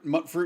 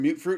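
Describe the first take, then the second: First: The first syllable rhymes with 'but'. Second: The first syllable rhymes with 'cute'. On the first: "some people always say mutt fruit" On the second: "instead of mute fruit"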